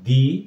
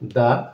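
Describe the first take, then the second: First: The word ends in a long 'ee' vowel. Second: The word ends in a short 'uh' vowel. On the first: The next word begins with a vowel. "তখন আমরা কি পড়ব? দি umbrella" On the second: The next word begins with a consonant. "তার মানে আমরা পড়ব দা বুক"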